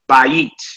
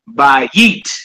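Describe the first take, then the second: First: The stress is on the first syllable. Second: The stress is on the last syllable. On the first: The speaker calls it right. "You say bayit" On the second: The speaker calls it wrong. "you don't say bayit"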